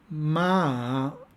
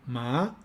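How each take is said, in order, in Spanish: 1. El tono baja y luego sube. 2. El tono sube de medio a alto. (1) "con un tono descendente-ascendente" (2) "con un tono ascendente"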